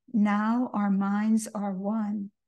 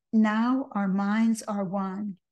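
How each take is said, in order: Both takes have the same delivery.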